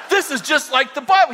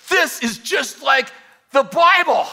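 First: Laughing retelling. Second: Slow, high, loud amazed exclamation; excited shout. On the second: Danny shouting in awe at the demon, excited yell. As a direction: belt it out in thrilled wonder. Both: Retold or imitated. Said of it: "And Danny goes".

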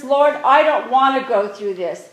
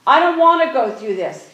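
First: Louder, earnest plea to the Lord; pleading prayer. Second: Louder, anguished plea; pleading prayer. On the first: Jesus voiced pleading with the Father in prayer, louder. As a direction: beg the Father to spare you. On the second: Jesus in the garden, pleading with the Father, louder. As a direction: cry it out to the Father. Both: Retold or imitated. Voicing Jesus praying in Gethsemane.

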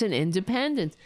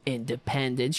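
First: Said in the usual way. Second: Mocking "independence". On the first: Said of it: "Fuck you, independence". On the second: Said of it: "Fuck you".

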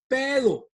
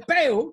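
First: Pedo with the D sounded; Mexican pedo with D. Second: Peo with the D dropped; Cuban peo without D. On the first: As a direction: say "pedo", keeping the D in. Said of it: "in Mexico they love the D". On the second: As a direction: say "peo", leaving out the D. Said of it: "We say peo 'cause we don't like the D". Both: Shown as a demonstration.

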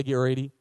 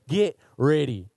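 First: Said in the usual way. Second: Slower, louder and fuller call-out. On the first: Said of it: "You need to say it like you're not in a movie theater". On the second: Shown as a demonstration. Preacher urging the congregation, a slower, louder call. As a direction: say it like you mean it, out loud. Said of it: "That's way better".

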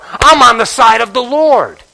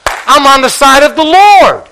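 First: Said in the usual way. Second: High, loud, proclaimed from the pulpit; ringing declaration. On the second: Acted. Preacher answering his own question, loud and proud. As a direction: shout it out as a testimony.

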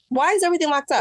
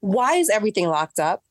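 First: "Why is everything locked up" higher and louder, stress on "is"; exasperated repeat. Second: Said in the usual way. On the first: Shown as a demonstration. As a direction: fling the question again in exasperation. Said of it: "repeats the question louder". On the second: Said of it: "repeats the question".

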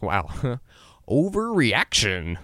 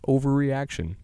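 First: Slow and amused, a laugh before the word; laughing at himself. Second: Said in the usual way. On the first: Retold or imitated. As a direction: chuckle out overreaction slowly. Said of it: "I shrug it off and think". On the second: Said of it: "That happens more than you think".

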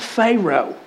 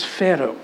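First: Pharaoh said as FAY-roh with a long ay; Texan pronunciation. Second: Pharaoh said as FEH-roh with a short e and a tapped r; Scottish pronunciation. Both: Retold or imitated. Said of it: "my wife always says".

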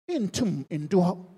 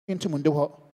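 First: "ntum ndu hɔ" drawn out slowly, "ntum" rising; slow emphasis. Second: Said in the usual way. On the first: Shown as a demonstration. Preacher hammering home that none can reach there, slowly. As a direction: stretch out "ntum ndu hɔ" word by word.

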